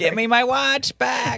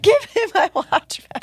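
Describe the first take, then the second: First: Higher, slow ghostly moan. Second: Much higher, louder ghostly shriek. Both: Pretend. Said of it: "like from the story".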